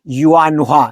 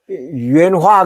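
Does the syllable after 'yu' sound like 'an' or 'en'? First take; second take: an; en. First: The syllable after 'yu' sounds like 'an'. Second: The syllable after 'yu' sounds like 'en'. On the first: The speaker calls it right. "유엔이 아니고 유한화" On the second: The speaker calls it wrong. "유엔이 아니고"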